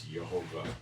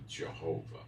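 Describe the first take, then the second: First: "Jehovah" begun with a Y sound, yeh-HO-vah; Hebrew Y pronunciation. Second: "Jehovah" begun with an English J sound; wrong J pronunciation. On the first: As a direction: say "Jehovah" with Y in place of J. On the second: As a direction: say "Jehovah" with a hard J at the front. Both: Shown as a demonstration. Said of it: "No J in the alphabet".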